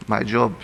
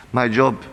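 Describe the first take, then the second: No difference in how they are said.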